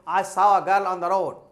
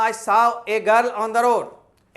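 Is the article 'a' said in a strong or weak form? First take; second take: weak; strong. First: The article is a short, reduced uh sound. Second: The article is a full, stressed ay sound. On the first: "वीक sound में आप अ बोलते हो" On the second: "जोर देकर बोलना"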